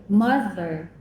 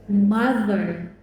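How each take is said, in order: The two takes are said the same way.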